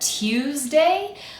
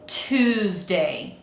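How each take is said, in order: First: A y sound follows the t. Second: No y sound follows the t. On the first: "In some regional accents, you might hear that there's like a y sound in there" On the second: "but in most North American accents, we tend to say"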